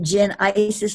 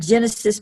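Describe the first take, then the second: First: The middle vowel is 'eye', like in Isis. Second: The middle vowel is short, like in Genesis. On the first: The speaker calls it right. "but Gen Isis, like ISIS" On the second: The speaker calls it wrong. "not Genesis"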